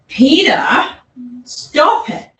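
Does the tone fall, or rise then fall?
rise-fall. The pitch rises and then falls, lengthened. "this rise full tone, which is the dominant tone"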